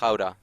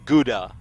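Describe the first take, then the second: First: It is said with a Dutch pronunciation. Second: It is said with an English pronunciation. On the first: The speaker calls it right. "Which is actually pronounced Gouda. It's Dutch" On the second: The speaker calls it wrong. "that you guys call like Gouda"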